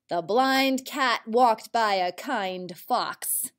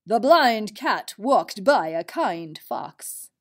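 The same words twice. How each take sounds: First: Said in the usual way. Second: Slow sentence, punching "blind" and "kind"; stressed example words. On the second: Shown as a demonstration. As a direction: pick out "blind" and "kind" for the listeners. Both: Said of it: "Did you hear another I N D word".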